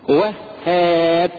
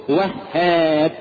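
The two takes are said the same way.

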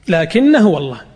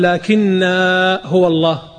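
First: The vowel of the first word is kept short. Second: The vowel of the first word is drawn out long. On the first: The speaker calls it right. "وعند الوصل تقرأها لكن هو الله" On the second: The speaker calls it wrong. "لا تقول لكن هو الله، هو يشوف المد فيمدها"

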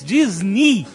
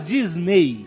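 First: The word ends with an 'ee' vowel sound. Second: The word ends with an 'ay' vowel sound. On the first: The speaker calls it right. "na pronúncia em inglês, Disney. Tem o som de I" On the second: The speaker calls it wrong. "na verdade não se fala Disney"

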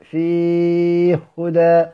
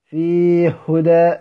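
First: The long vowel is held for a medium time. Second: The long vowel is held briefly. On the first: "والتوسط" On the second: "الكسر"

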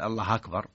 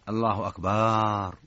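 First: The final r carries an added a vowel. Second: The vowel after the b is drawn out. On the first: The meaning stays the same. "فتح هذه سهل" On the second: It turns the word into a word for drums. "مد الباء"

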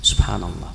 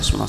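First: It is said slowly and fully. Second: It is said quickly and carelessly. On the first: The words are recited from the heart with understanding. The speaker calls it right. "beliau bersabar" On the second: The words are recited without heartfelt understanding. The speaker calls it wrong. "hitungan 33 kali itu cepat sekali"

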